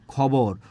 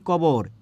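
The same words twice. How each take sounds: First: Said in the usual way. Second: কবর with unaspirated ক for খ; aspiration dropped. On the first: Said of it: "খবরে ছিল মহাপ্রাণ খ". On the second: Shown as a demonstration. Teacher showing the example, কবর with k for kh. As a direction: say কবর with no puff of air. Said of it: "কিন্তু আমি এখানে খবরে কি বলছি?".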